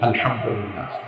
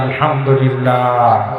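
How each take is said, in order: First: It is said loudly. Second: It is said even more loudly.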